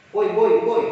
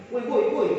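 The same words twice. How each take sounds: First: Put-on louder call of boy, boy, boy; a child yelling boy, boy, boy. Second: Said in the usual way. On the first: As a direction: call out to a parent across the room. Child calling his parent.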